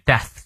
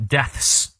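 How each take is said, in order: First: "death" ending on TH, no S; final S dropped. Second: "deaths" with TH followed by a clear S; final S sounded. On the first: Teacher shows the common easier pronunciation, "death" without final S. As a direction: stop "death" on the tongue-between-teeth TH. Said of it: "很少有人把最后那个S发出来". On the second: Teacher shows the textbook pronunciation, "deaths" with audible final S. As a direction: hiss the final S after TH in "deaths". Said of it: "理论上发音是deaths". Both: Shown as a demonstration.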